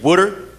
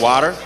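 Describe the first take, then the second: First: It is said with a New Jersey accent. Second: It is said with a Boston accent.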